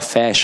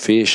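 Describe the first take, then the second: First: The first vowel is said open. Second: The first vowel is said closed.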